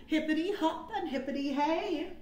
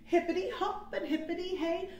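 Both takes have the same delivery.

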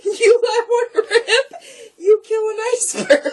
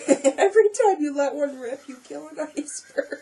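First: Laughing. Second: High giggly delivery. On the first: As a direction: choke out words laughing. Repeats joke cracking up. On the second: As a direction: tell it while giggling. First telling of joke. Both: Real, not acted.

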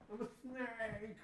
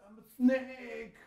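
First: Slow high snake voice, pulled back in volume. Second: Slow, high, loud hammed-up snake. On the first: Pretend. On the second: Dad playing a snake in cobra pose, loud and hammy. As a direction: stretch out I'm a snake like a cartoon snake. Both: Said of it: "you gotta make a snake noise".

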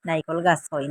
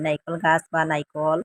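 First: Said in the usual way. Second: Slow demo word. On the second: Shown as a demonstration. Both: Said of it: "Sylheti ভাষায় তারে নাইকল কই".

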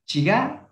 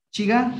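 First: Said in the usual way. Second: "Chiga" lifted high with a questioning rise; question intonation. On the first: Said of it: "normal, "hola". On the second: Shown as a demonstration. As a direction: ask "Chiga" like how are you. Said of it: "con un tono de pregunta".

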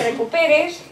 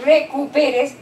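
First: Said in the usual way. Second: "recuperes" slowly split as re-cu-pe-res; teacher's slow, segmented "recuperes"; broken into syllables. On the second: Shown as a demonstration. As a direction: sound out "recuperes" one syllable at a time. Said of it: "este chico está en silábico alfabético".

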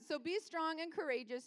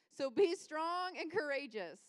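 First: Said in the usual way. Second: STRONG and COURAGEOUS slow and forceful; strong, Hulk-like. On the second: Real, not acted. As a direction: punch "strong" with slow, drawn-out power. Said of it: "See, Hulk. That's what I'm saying, strong".

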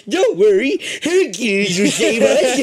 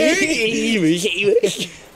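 First: Put-on higher, slower old man voice. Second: Slow put-on old man voice. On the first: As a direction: quaver it like a hopeful old man. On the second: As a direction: speak it like a frail old man. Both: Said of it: "It's my old man voice".

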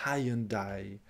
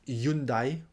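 First: Hyundai as "hai-yun-dai"; three syllables in Hyundai, opening on "hai"; English pronunciation. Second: Hyundai as "yoon-dai"; French pronunciation. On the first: Teacher echoes the English car name, English pronunciation. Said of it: "alors nous on dit". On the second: Teacher gives own French version, French pronunciation. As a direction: start Hyundai straight on "yoon". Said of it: "c'est comme ça que je dis". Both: Shown as a demonstration.

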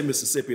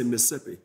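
First: Said in the usual way. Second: Mississippi squeezed to three syllables, Miss-sippi; local pronunciation. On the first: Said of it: "if they're talking to other people". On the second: Shown as a demonstration. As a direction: drop the middle syllable of Mississippi. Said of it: "When they start talking to each other".

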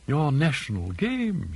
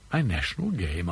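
First: Slow, gentle "Your national game"; father, slyly gentle, to the guest; gently. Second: Slow-witted, puzzled repeat of "My national game?"; he doesn't get it, asks back; puzzled question. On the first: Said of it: "he said gently". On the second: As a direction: Jorkins echoing, baffled. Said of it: "asked Jorkins, slow in the uptake". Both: A narrator's reading.

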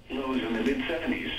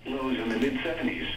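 Both takes have the same delivery.

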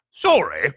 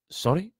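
First: Loud, high bark of disbelief. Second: Put-on high-pitched small boy's apology; quick, apologetic boy. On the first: Giant throws the boy's apology back, barking. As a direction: bark it back as an indignant question. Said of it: "barked Hagrid". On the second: Boy apologises to the shocked giant, quick and high. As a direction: pipe up with a questioning sorry. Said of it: "said Harry quickly". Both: A narrator's reading.

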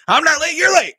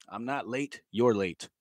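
First: High, loud comic comeback; jokey high-pitched outburst; mock indignant shout. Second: Said in the usual way. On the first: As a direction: yell it back in playful protest. Repeats the line as mock outburst.

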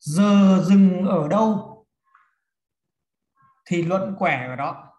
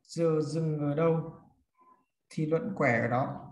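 First: Slow, loud opening, then a pause; emphatic dictation. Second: Repeated dictation. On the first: Teacher giving students a rule to write, slow and projected. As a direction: dictate the rule slowly, projecting the first half. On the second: Teacher repeats rule for note-takers. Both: Shown as a demonstration.

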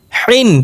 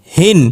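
First: Higher হিন with a tight, pressed হ; pressed throat H. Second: হিন with a light, unpressed হ. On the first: Teacher drilling two H sounds, throat-pressed হিন. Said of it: "চেপে উচ্চারণ করতে হবে গলার মধ্যে". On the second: Teacher drilling two H sounds, light হিন. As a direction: let হিন start on an easy open breath. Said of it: "আর একটা হালকা নরমাল উচ্চারণ". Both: Shown as a demonstration.

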